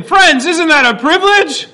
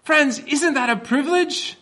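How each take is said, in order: First: Much louder and higher preaching; louder, higher, more energy. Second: Said in the usual way. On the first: Shown as a demonstration. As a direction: really lift it, rally the room. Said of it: "That's better". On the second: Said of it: "Let's try again".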